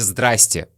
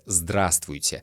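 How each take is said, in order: First: Several sounds are dropped, making it shorter. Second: Every sound of the word is clearly pronounced. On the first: This is everyday casual speech. "на улице, в магазине, в офисе, в транспорте вы услышите" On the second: The speaker is being careful and precise. "стараются четко выговаривать каждый звук"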